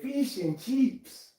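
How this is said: It is said in an Australian accent. "Australians say"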